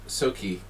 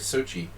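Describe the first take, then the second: First: The middle consonant is a hard 'k' sound. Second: The middle consonant is a 'ch' sound. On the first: The speaker calls it wrong. "I always say it wrong. Why do I want to say Soki?" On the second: The speaker calls it right. "I'm sorry"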